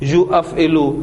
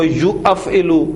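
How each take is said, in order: No difference in how they are said.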